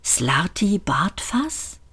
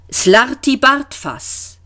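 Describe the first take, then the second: First: Slow, softer rising question; drawn-out, softly puzzled question; incredulous echo. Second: Slow, higher, drawn-out name; patient, drawn-out old man; gentle repeat. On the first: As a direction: echo the name in hushed disbelief. Arthur echoes the name in disbelief. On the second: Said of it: "wiederholte der Alte sanft". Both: A narrator's reading.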